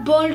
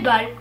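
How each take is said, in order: First: The word is pronounced the English way. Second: The word is pronounced a non-English way. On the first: The speaker calls it wrong. "on ne prononce pas ball comme en anglais" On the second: The speaker calls it right. "mais ball"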